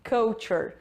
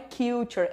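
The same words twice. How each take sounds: First: The first vowel sounds like 'uh'. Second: The first vowel sounds like 'you'. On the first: The speaker calls it right. "é K, que nem do cut" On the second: The speaker calls it wrong. "associam esse U com o alfabeto e querem falar culture. Não é culture"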